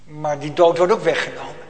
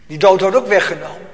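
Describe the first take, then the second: First: Said in the usual way. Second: Louder emphatic repeat. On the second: Acted. Repeated louder, stress on ook.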